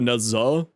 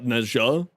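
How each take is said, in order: First: The middle consonant is a plain z sound. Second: The middle consonant is a zh-like sound. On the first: This is how the speaker says it personally. "I go Nezza" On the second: This is how the game says it. "not Nezja"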